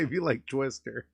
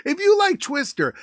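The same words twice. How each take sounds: First: Said in the usual way. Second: Loud, high-pitched restart; hyped-up plug. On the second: Real, not acted. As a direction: burst into a punchy viewer plug. Restarts plug with sudden hype.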